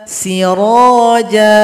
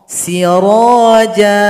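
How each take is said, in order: No difference in how they are said.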